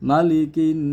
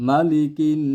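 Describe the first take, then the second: Both takes have the same delivery.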